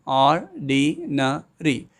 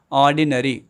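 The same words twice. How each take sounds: First: "ordinary" slowly in four beats, or-di-na-ry; "ordinary" drawn out syllable by syllable; syllables spelled out slowly. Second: Said in the usual way. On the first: Shown as a demonstration. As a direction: beat out "ordinary" for the class. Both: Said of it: "some more examples for four syllables".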